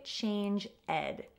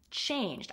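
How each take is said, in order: First: The ending is said as an extra syllable. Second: The ending joins the word as one syllable. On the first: The speaker calls it wrong. "Don't say change ed" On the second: The speaker calls it right. "Make sure that you're pronouncing it correctly"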